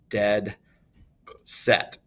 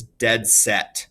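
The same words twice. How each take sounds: First: "dead... set" as separate stressed words, long pause between; two equal stresses. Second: Said in the usual way. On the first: Shown as a demonstration. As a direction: give "dead" and "set" each its own beat. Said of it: "two stressed syllables right next". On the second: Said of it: "two stressed syllables".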